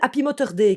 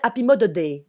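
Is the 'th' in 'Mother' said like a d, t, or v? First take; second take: t; d. First: The 'th' in 'Mother' sounds like a t. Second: The 'th' in 'Mother' sounds like a d. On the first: "prends-le comme un T normal" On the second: "le T H c'est un D"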